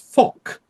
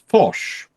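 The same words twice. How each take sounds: First: The name is said in an English-style way. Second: The name is said in a French-style way. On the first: This is how British naval officers say it. The speaker calls it wrong. "the pronunciation I have learnt ... the British side was Foch" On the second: This is how others say it should be said. The speaker calls it right. "but apparently it's Foch"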